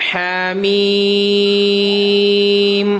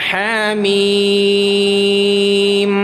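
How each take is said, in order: No difference in how they are said.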